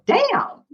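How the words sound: It sounds delighted and impressed. Things are going very well. "And when things are really good, you can go damn"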